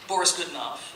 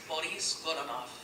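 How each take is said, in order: First: The name is said with an American pronunciation. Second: The name is said with a Russian pronunciation. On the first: "by the Americanized title" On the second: "the correct pronunciation of this opera is"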